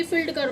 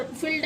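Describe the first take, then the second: First: फील्ड कर cut short, the wrong way; clipped short field. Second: फील्ड said softly with a long ee; long ee field. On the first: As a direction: snap the word off quickly as the error. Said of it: "फील्ड नहीं बोलते एकदम कि". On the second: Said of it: "थोड़ा सा long sound लेके बोलते हैं". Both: Shown as a demonstration.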